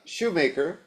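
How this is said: The name is said with an American pronunciation. This is how Americans usually say the name. "that's the American pronunciation"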